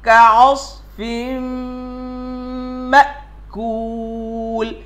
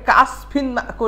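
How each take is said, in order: First: The first word ends with a nasal m sound. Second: The first word ends with an n sound. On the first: The speaker calls it right. "কিন্তু হবে কাআসফিম" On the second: The speaker calls it wrong. "আমরা অনেকে কাআসফিন মাকুল এমন পড়ি"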